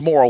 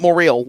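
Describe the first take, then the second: First: The name sounds like the word 'moral'. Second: The name does not sound like 'moral'. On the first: The speaker calls it right. "like the moral of the story" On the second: The speaker calls it wrong. "not Morrill"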